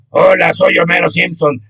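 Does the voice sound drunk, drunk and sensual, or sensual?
drunk. The voice sounds drunk, not sensual.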